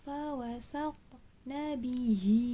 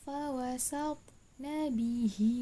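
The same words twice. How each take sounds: Both takes have the same delivery.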